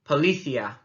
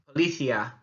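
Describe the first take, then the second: No difference in how they are said.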